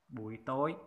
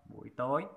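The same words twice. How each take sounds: No difference in how they are said.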